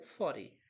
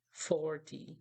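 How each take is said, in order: First: Forty the American way; tapped T. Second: Forty with a crisp T; forty the British way; clear T. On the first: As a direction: say forty as "fordy". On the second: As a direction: say forty with the T fully sounded. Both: Shown as a demonstration. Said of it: "muitas pessoas podem falar forty".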